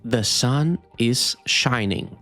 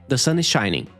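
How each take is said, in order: First: It is said slowly. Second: It is said fast.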